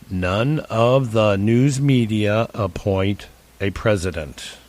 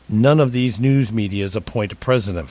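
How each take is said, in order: First: It is said more slowly. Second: It is said at a normal pace.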